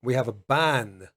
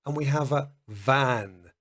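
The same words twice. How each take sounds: First: Ban with a clear b; b sound. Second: Van with a clear v; v sound. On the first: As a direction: lips together for ban. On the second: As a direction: teeth on lip for van. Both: Shown as a demonstration.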